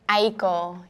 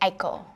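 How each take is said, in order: First: The name is said with an American pronunciation. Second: The name is said with a Japanese pronunciation. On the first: This is how the speaker grew up saying it. "Aiko is like how I grew up saying it" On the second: This is how a Japanese speaker would say it. "you would say Aiko if you were Japanese"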